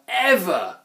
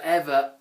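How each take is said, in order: First: Ever punched high and loud with a fall; emphatic ever. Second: Said in the usual way. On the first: A narrator's reading. Narrator stresses the trolls never flushing, ever punched high. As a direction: lean hard on the last ever.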